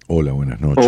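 It is said in a put-on suave, seductive voice.

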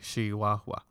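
The opening sound is a drawn-out, amplified sh. "it's the sh that they amplify"

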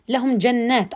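The reciter pauses after the word jannat. The water beneath the gardens is what flows. The speaker calls it right. "أقف على جنات، ثم أقول جنات تجري من تحتها الأنهار"

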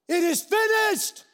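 It is said in a triumphant, victorious tone.

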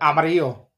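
The name is said with a Spanish pronunciation.

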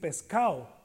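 It is said in a coastal Mexican accent, s dropped.

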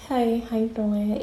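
It is said in a soft, sexy girl voice.

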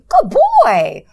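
It is said in a warm, positive tone.

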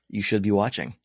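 It sounds only lightly judgmental, half-hearted.

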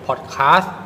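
The word is said in a British accent. "ซึ่งเป็นสำเนียงอังกฤษ"

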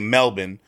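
It is said in an Australian accent. "Australians say Melbourne"

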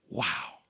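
It sounds genuinely amazed and exclamatory.

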